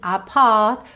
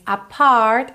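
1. O som do R é omitido. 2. O som do R é pronunciado. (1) "e sim apart, porque ele é britânico" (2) "Ele não diz"

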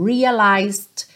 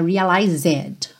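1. Nenhuma vogal extra é pronunciada no meio da palavra. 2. Uma vogal extra é pronunciada no meio da palavra. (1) "cuidado para não pronunciar o E" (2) "não é realized"

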